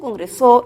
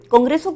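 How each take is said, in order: First: The stress is moved to another syllable. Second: The stress falls in its usual place. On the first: The speaker calls it wrong. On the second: The speaker calls it right.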